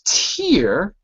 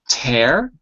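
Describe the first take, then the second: First: The word rhymes with beer. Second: The word rhymes with air. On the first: It means a drop that falls when crying. "And then there's tear, like drink a beer" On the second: It means to rip something apart. "There's tear, just like the air you breathe"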